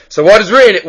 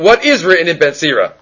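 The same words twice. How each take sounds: First: Said in the usual way. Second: "is" picked out as the key word of the question; stress on IS. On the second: Real, not acted. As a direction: lean on "is" when asking it over. Repeats question, stressing the verb.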